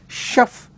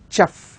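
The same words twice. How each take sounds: First: The word begins with a soft 'sh' sound. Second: The word begins with a hard 'ch' sound. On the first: The speaker calls it right. "Though the word starts with the letters C and H, it is pronounced as chef" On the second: The speaker calls it wrong. "not as chef"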